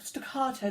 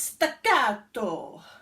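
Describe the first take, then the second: First: It is said with a posh English accent. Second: It is said with a passionate Italian accent. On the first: "that's the posh English word for it" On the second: "You've got to say it like you're in Italian, with lots of passion and hand movements"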